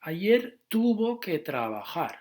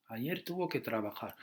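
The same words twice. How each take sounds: First: "tuvo" stressed on the first syllable, said higher and louder; stress on the stem. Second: Said in the usual way. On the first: Shown as a demonstration. Teacher showing learners where the stress falls in "tuvo", higher and louder. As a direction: lean on the "tu" of "tuvo", not the ending. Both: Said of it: "It's important here to not to put them at the end".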